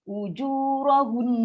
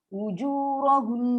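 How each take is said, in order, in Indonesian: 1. Bunyi n di akhir ditahan dengan dengung sengau yang panjang. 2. Bunyi n di akhir ditahan dengan dengung sengau yang panjang.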